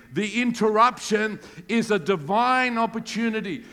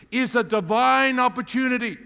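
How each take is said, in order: First: The line for the church to echo; call and response. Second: « divine » lancé haut et fort; leading the congregation into repetition; preaching emphasis. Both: Shown as a demonstration. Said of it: "Say that with me".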